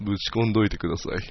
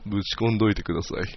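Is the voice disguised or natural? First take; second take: disguised; disguised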